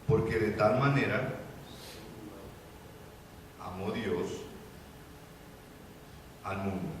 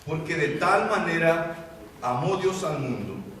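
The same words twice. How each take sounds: First: It is read more slowly. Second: It is read at a normal pace.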